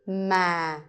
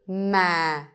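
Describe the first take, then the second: First: The pitch stays low and falls. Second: The pitch stays low and falls.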